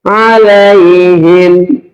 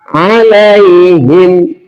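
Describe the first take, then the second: Both takes have the same delivery.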